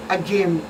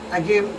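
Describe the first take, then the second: No difference in how they are said.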